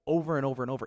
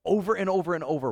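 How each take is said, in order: First: Said in the usual way. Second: OVER stressed loud each time; building emphasis on "Over and over and over"; emphatic repeat. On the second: Real, not acted. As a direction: hammer each "over" home.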